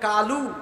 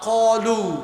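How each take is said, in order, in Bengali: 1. প্রথম ব্যঞ্জন হালকা, স্বরবর্ণ খোলা 'a'। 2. প্রথম ব্যঞ্জন ভারী, স্বরবর্ণ গোল 'o'। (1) "এখন বলতেছে কালু" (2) "এটা তো কাফ না, এটা কফ"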